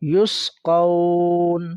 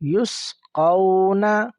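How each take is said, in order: First: The word stops on the final consonant. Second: The word ends with a short vowel.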